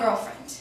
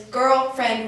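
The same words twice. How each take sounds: First: Put-on "girlfriend" meant as a lover; "girlfriend" as in sweetheart; girlfriend as romantic. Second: Put-on "girlfriend" as a casual word for a female friend; "girlfriend" meant platonically; girl friend as platonic. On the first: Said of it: "not girlfriend". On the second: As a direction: say "girlfriend" as she would, just friends. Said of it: "when she says it".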